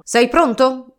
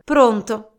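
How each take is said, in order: First: Eager question. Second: Resigned reply. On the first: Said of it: "disse Don Chisciotte". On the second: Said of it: "con un'alzata di spalle rassegnata". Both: Acted.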